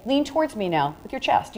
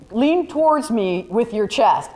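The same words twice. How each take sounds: First: Softer, easy "Lean towards me now with your chest"; gentle photographer's direction, a touch softer; harmless, gentle request. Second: Slow, drawn-out "Lean towards me with your chest"; mock-creepy slow request, lightly done; grabby, invasive request. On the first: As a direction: ask it kindly and unthreateningly. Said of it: "the back of the hand becomes harmless". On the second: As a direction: make the ask feel pushy and invasive. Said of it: "Your hand this way is invasive". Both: Shown as a demonstration.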